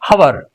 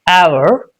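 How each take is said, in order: First: The word starts with an audible H sound. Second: The word starts with no H sound. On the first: The speaker calls it wrong. "we mostly say hour, but it's wrong" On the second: The speaker calls it right. "The right one is hour"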